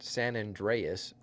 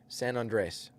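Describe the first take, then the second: First: The name ends in 'dreas', with an extra 'as' syllable. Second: The name ends in 'dres', without an 'as' syllable. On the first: The speaker calls it wrong. "not San Andreas" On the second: The speaker calls it right. "San Andres, not San Andreas. There's no E A S"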